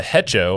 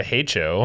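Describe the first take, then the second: First: "hecho" said as HEH-cho; short open e, as in "bet", in "hecho"; short-e pronunciation. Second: "hecho" said as HAY-cho; "hecho" with its first vowel as in "hay"; long-a pronunciation. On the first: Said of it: "I don't know which one's best". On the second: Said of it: "as Matt says". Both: Shown as a demonstration.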